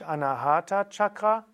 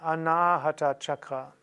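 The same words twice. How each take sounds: First: The A in Anahata is said short. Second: The A in Anahata is said long. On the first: The speaker calls it wrong. "also nicht Anahata Chakra" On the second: The speaker calls it right. "Das A hier ist lang"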